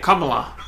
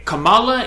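First: Kamala as KAH-muh-luh; Kamala said like "comma-la"; right pronunciation. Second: Kamala as kuh-MAH-luh; wrong pronunciation. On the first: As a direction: stress the first syllable of Kamala. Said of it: "is the right way to say it". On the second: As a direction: stress the second syllable of Kamala. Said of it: "is the wrong way to say it". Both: Shown as a demonstration.

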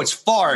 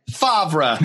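First: Favre said as one syllable, "Farv"; player's own pronunciation. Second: Favre in two syllables, "FAHV-ruh"; phonetic pronunciation. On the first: Quoting the player insisting on his name, Favre as "Farv". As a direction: say Favre with the R before the V. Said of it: "He's like, "No, it's Favre". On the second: Phoneticist's verdict on the name, Favre as "FAHV-ruh". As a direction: sound Favre out with V before R. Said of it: "I went to ph-, uh, like, a phoneticist". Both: Retold or imitated.

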